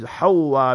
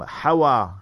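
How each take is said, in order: First: The w sound is doubled and held longer. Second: The w sound is short and single. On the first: The speaker calls it right. "proper name is Hawa bi tashdeedil waw" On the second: The speaker calls it wrong. "Normally our people give the name Hawa. It's not, you can say it's acceptable, but not the proper way"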